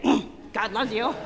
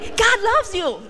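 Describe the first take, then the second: First: It is said glumly, without a smile. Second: It is said cheerfully, with a smile.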